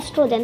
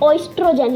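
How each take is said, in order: First: The word begins with an 'eh' sound. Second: The word begins with an 'oy' sound. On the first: It is the usual spoken form. The speaker calls it right. "आपको सिर्फ इसको एस्ट्रोजन बोलना है" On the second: It follows the written spelling. The speaker calls it wrong. "आपको इसको ऑइस्ट्रोजन करके नहीं बोलना है"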